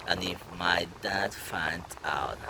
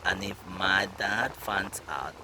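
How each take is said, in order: Both takes have the same delivery.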